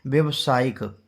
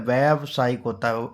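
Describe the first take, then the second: First: व्यवसायिक said with short vya; wrong form first. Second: व्यावसायिक with a long vyaa at the start; correct long aa. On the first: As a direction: read the wrong व्यवसायिक plainly, vyav-. (गलत रूप व्यवसायिक, छोटा 'व्य') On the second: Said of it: "या में बड़ा की मात्रा लगी होती है". (सही रूप व्यावसायिक, लंबा 'व्या') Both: Shown as a demonstration.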